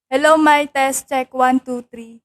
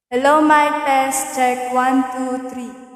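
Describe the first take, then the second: First: The voice is heard dry, with no echo. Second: The voice is heard with an added echo. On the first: "tanggalin po natin yung echo" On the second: "Lagyan natin ng echo"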